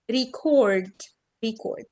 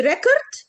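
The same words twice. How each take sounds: First: Record as ri-CORD, slow long second syllable; weak start, stretched "cord" in record; verb stress. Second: Record as REC-ord; noun stress. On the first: Teacher contrasting verb with noun, record stressed on second syllable. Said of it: "اللي هي السيلابل التانية". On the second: Teacher contrasting noun with verb, record stressed on first syllable. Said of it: "ده noun". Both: Shown as a demonstration.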